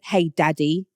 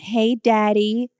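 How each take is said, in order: First: It is said in a British accent. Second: It is said in an American accent. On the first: "It does not sound good in a British accent" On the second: "you always have to use an American accent"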